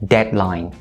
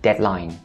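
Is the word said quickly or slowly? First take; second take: slowly; quickly. First: The word is said slowly and carefully. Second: The word is said quickly.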